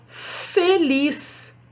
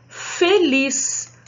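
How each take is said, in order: The two takes are said the same way.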